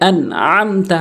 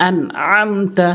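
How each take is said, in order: First: The throaty ain sound is clearly pronounced. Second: The throaty ain sound is clearly pronounced.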